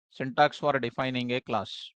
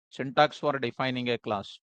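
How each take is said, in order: Both takes have the same delivery.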